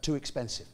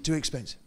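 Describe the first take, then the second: The two takes are said the same way.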